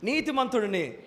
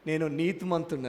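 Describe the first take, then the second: First: నీతిమంతుడిని proclaimed a touch louder, falling at the end; a bit louder. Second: Said in the usual way. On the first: Shown as a demonstration. Preacher urging the church to repeat, slightly louder. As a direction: lift the volume on నీతిమంతుడిని. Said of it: "ఇంకొంచెం బిగ్గరగా". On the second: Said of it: "ఈ మాట నాతో గట్టిగా చెప్తారా".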